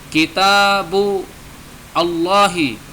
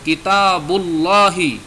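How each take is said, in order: First: The two words are said as separate words. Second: The two words are linked into one word.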